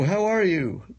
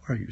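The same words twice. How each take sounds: First: The phrase is spoken loudly. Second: The phrase is spoken softly. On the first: An American is speaking. "you can hear him from a block away" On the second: A polite British person is speaking. "they talk softly compared to Americans"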